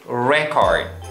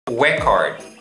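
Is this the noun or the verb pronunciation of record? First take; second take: noun; noun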